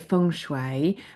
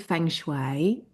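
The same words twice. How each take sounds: First: It is said in an Eastern-style pronunciation. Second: It is said in a Midlands English accent. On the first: "If you're Eastern, you'll probably say feng shui" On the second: "I say feng shui"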